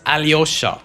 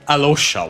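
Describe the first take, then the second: First: A y sound comes before the o. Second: No y sound comes before the o. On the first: The speaker calls it right. "It's Alyosha. Where's the Y?" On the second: The speaker calls it wrong. "I don't know why they're not pronouncing the Y"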